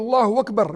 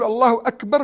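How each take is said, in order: First: Akbar begins with a w sound. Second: Akbar begins with a glottal stop. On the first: The speaker calls it wrong. "بالواو وهذا غلط" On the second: The speaker calls it right. "بالهمزة وهذا هو الصح"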